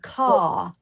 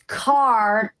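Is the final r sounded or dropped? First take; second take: dropped; sounded. First: The final r is dropped, like 'caw'. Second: The final r is clearly sounded. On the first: "has a British accent" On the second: "it's car"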